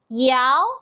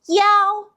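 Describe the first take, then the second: First: The pitch rises from middle to high. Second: The pitch stays high and level.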